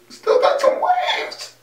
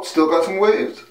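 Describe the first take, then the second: First: Drawn-out, squeaky crow of delight; gleeful boast. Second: Said in the usual way. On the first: Real, not acted. Man admiring his hair waves, gleefully boasting. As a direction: stretch it out slowly into a giddy high squeal.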